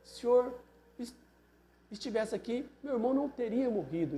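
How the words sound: It is said in a humble, reverent tone. It acknowledges his presence. "ela ajoelhou em adoração"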